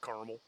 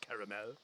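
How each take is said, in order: First: It is said in the Ohio regional pronunciation. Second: It is said in the California regional pronunciation. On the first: "If you're from Ohio, it's caramel" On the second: "If you're from California, it's caramel"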